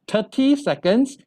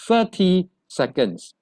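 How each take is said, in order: First: Thirty begins with a plain t sound. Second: Thirty begins with a soft th sound. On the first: The speaker calls it wrong. "It's not" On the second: The speaker calls it right.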